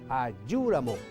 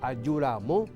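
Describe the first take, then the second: First: The stress falls on the first part, ayu. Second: The stress falls on the final part, ramo. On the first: If I come tomorrow. "Se carga la voz en ayú" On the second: I have only just arrived. "Vengo recién"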